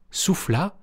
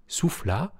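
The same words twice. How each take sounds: The two takes are said the same way.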